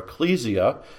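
The word is given an anglicized pronunciation.

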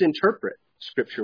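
The stress falls on the word interpret. The act of interpreting is what matters. "If you put the emphasis on interpret"

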